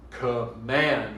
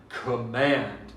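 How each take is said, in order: First: The stress is on the second syllable. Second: The same.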